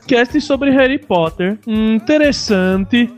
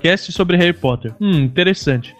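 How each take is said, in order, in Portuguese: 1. É lido com um sotaque estrangeiro forçado. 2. É lido com o sotaque normal do falante.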